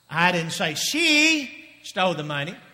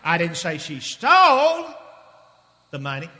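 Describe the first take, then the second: First: The word she carries the main stress. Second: The word stole carries the main stress. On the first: Someone else took the money. "if she didn't do it, who did it?" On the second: She did something else with the money. "What did she do with the money?"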